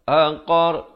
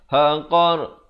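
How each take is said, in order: The two takes are said the same way.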